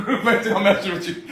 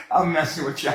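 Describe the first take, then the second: First: Laughing through a slow, louder tease; chuckling while admitting the joke. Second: Said in the usual way. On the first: Real, not acted. Host laughing while teasing her about her drink. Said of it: "and I'm just playing".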